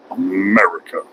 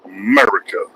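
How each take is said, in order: First: America. dropped low with a falling end; low falling echo. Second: America. sung out high with a rising end; rising call. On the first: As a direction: let America. fall low like an answer. Answers own call lower. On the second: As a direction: lift America. up high and let it rise at the end. Calls out America, then repeats. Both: Acted.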